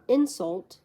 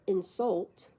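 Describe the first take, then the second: First: The stress is on the first syllable. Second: The stress is on the second syllable. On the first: It is used as a noun. "the noun insult" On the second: It is used as a verb. "the verb insult"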